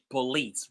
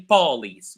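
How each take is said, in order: First: The stress is on the second syllable. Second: The stress is on the first syllable. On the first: The speaker calls it right. "we say police, right? So the first syllable ... it's not very loud compared to the second one" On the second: The speaker calls it wrong. "We never say police"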